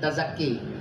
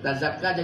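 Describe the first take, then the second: First: The last vowel is a fronted 'ee/eh' sound. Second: The last vowel is an open 'ah' sound. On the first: This is a variant reading from the seven readings. "Tazakka jadi tazakki" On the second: This is the ordinary reading. "Tazakka jadi tazakki"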